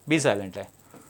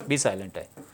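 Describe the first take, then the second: The two takes are said the same way.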